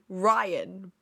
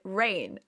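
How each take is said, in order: First: It is two syllables, sounding like 'Ryan'. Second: It is one syllable, sounding like 'rain'. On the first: The speaker calls it right. "when it's actually Ryan" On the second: The speaker calls it wrong. "I have always pronounced it Rain"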